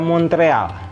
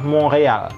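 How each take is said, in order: First: It is pronounced with Indonesian sounds. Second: It is pronounced with French sounds.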